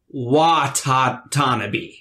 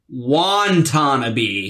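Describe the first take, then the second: First: The name has no extra n sound. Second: The name has an extra n sound. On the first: The speaker calls it right. "when it's actually" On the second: The speaker calls it wrong. "We were adding an extra N"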